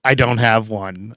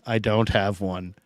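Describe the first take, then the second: First: Said in the usual way. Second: Softer, dropped-away repeat of "I don't have one"; quiet, trailing echo of the line. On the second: Real, not acted.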